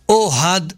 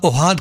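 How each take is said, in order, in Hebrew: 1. ההטעמה היא על ההברה הראשונה. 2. ההטעמה היא על ההברה האחרונה. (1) "קוראים לך אוהד מלעיל, לא מלרע" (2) "לא קוראים לך אוהד"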